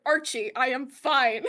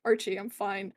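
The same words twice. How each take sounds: First: Slow, every word of "I am fine" separated; slower, firmer "I am fine"; emphatic insistence. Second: Gentle reassurance. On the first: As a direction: insist firmly on "I am fine", spelling it out. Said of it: "shakes him back and forth". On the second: First calm reassurance to Archie. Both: Acted.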